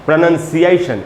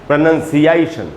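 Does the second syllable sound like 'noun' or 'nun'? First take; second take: nun; nun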